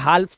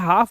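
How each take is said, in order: First: The L sound is pronounced in the word. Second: The L sound is left out of the word. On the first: The speaker calls it wrong. "इसमें हाल्फ तो नहीं बोलते" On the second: The speaker calls it right. "इसे हाफ बोलते हैं"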